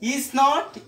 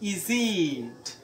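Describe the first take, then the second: First: Said as two separate full words. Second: Said as one short contracted word.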